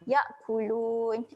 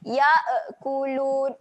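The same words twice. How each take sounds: First: The hamzah is held with no added vowel. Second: The hamzah bounces with an added vowel sound. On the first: The speaker calls it right. "tahan saja" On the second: The speaker calls it wrong. "kalau lantunan ya'kulun, ada e tu salah eh"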